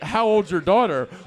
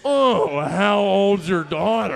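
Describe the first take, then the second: First: It sounds like an innocent, polite question. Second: It sounds suggestive and creepy.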